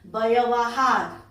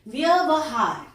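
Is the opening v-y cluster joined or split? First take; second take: split; joined. First: The opening v and y are split apart. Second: The opening v and y are joined together. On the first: The speaker calls it wrong. "आप लोग बोलते हो" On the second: The speaker calls it right. "शुद्ध होता है ... व में य सटा हुआ है"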